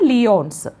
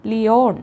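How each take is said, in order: First: "ലിയോൺസ്" with the final s sounded. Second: "ലിയോൺ" ending on n, no s; final s dropped. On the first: Teacher answering own quiz on Interpol, "ലിയോൺസ്" ending in audible s. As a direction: say "ലിയോൺസ്" as li-YONS, closing on s. Teacher gives two forms of name. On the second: Teacher offering alternative name of Interpol's city, "ലിയോൺ" without final s. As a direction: say "ലിയോൺ" as li-YON, leaving off any s. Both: Shown as a demonstration.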